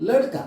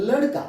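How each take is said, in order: No difference in how they are said.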